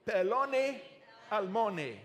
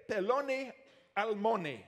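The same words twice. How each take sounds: First: "Peloni almoni" again, peh-LO-nee al-MO-nee, a touch louder; Hebrew pronunciation, repeated. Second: "Peloni almoni" as peh-LO-nee al-MO-nee, clearly sounded out; Hebrew pronunciation. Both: Shown as a demonstration.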